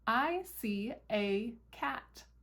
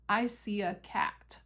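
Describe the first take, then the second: First: The word 'a' is said with a full 'ay' vowel. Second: The word 'a' is reduced to a relaxed 'uh'. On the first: It sounds proper. "A sounds like a little proper to me" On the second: It sounds natural and relaxed. "uh sounds a little bit more like natural and relaxed"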